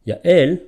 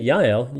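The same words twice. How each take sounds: First: "Yael" as ya-EL, second syllable high and loud; Hebrew Yael. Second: "Yael" as YAH-el, stressed at the start; English Yael. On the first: Teacher showing the name in Hebrew, ya-EL. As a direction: stress the end of "Yael". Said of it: "you're speaking in Hebrew". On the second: Teacher showing the name for an English speaker, YAH-el. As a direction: anglicise "Yael" with first-syllable stress. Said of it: "you're probably speaking to an English speaker". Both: Shown as a demonstration.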